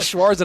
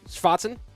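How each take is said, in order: First: The name is said with an English pronunciation. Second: The name is said with a German pronunciation. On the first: "It's gonna be Schwarzen on C R L broadcasts" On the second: "correctly pronouncing the German's name"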